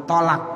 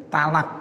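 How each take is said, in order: First: "tolak" with heavy t and rounded o; heavy Arabic to. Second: "talak" with light t and open a; ta-initial pronunciation. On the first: Teacher showing the proper form, "tolak" with heavy to. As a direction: correct "tolak", starting with to. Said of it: "Jadi to diganti dengan ta". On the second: Teacher showing the lay form, "talak" with plain ta. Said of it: "bukan tolak". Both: Shown as a demonstration.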